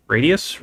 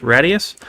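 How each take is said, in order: First: Radius said as RAY-dee-us; Radius with long A. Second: Radius said as RAD-ee-us, like rad; Radius with short A. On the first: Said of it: "I don't know how to pronounce it". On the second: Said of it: "I like to say Radius 'cause the mod is, well, kinda rad". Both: Shown as a demonstration.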